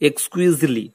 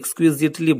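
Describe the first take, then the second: First: The t sound in the middle is silent. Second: The t sound in the middle is pronounced. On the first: The speaker calls it right. "এই টি এর উচ্চারণটা কিন্তু হবে না" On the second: The speaker calls it wrong. "যদিও আমরা এক্সকুইজিটলি বলি"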